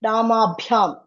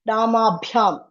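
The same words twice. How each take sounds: First: The b sound has a puff of air. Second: The b sound has a puff of air.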